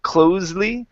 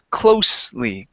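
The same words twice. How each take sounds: First: The middle consonant is a buzzing z sound. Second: The middle consonant is a hissing s sound. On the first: The speaker calls it wrong. "instead of being a Z sound, a voiced S" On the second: The speaker calls it right. "unvoiced S"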